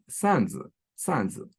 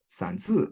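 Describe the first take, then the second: First: "sanzi" with SAN stressed, zi dropping away; stress on first syllable. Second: "sanzi" with ZI stressed, high then falling; stress on second syllable. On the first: Lecturer demonstrates Tokmak dialect word, "sanzi" stressed on SAN. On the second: Lecturer demonstrates Frunze dialect word, "sanzi" stressed on ZI. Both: Shown as a demonstration. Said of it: "it's a stress difference".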